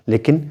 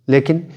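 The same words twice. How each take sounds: The two takes are said the same way.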